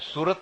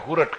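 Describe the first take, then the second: First: The word begins with an s sound. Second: The word begins with an h sound. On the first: "એ સુરત નહીં" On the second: "હુરટ કહેશે"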